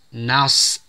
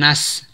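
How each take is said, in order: First: The n is light and the s heavy. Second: Both the n and the s sound light. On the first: The speaker calls it right. "nun tipis, shad tebal sehingga dibaca nas" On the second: The speaker calls it wrong. "bukan nas sehingga shad menjadi tipis"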